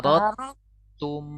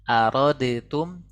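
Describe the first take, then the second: First: The d is dropped into a doubled t. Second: The d sound is pronounced before the t. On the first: The speaker calls it right. "huruf yang kosongnya itu tidak dibaca, huruf yang tasydidnya dibaca double" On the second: The speaker calls it wrong. "bukan arodetum"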